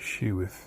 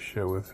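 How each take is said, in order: First: The first vowel sounds like 'shoe'. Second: The first vowel sounds like 'show'. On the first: This is how other people say it. "Some people say sheweth" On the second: This is how the speaker personally says it. "I say showeth"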